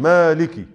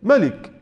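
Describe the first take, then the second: First: مالك with a long drawn-out first "aa"; مالك with the first vowel clearly lengthened; long alif. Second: ملك with a short first vowel, "malik"; ملك read off the letters, first syllable kept short; short vowel as written. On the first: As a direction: say مالك as pronounced, holding the alif: maaliki. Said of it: "أنطقها بإثبات الحلف". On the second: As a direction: say ملك as spelt, without any long alif. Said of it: "هكذا كتبت". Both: Shown as a demonstration.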